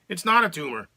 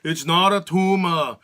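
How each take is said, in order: First: It is said in a plain, ordinary accent. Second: It is said in a heavy Austrian accent. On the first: The line sounds flat and unremarkable. "what if he talked normal and just said" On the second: The line becomes memorable and iconic. "But instead, we've got"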